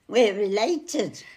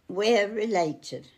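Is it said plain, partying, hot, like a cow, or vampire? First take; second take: partying; plain. First: It is said like someone having a party. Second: It is said in a plain, normal way.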